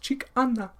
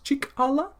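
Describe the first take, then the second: First: The middle consonant is an n sound. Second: The middle consonant is an l sound. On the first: This is the Nakota dialect form. "in Dakota it's" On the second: This is the Lakota dialect form. "in Lakota is"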